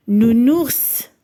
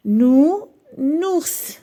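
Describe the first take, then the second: First: "Nounours" said as one joined word; "Nounours" whole, carefully voiced for listening; clear model word. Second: "Nounours" split into a long nou, then nours; "Nounours" in two stretched beats; syllable by syllable. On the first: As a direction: say "Nounours" clearly, without a break. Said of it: "repère le son qui se répète". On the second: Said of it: "غادي نحددوا الخانة". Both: Shown as a demonstration.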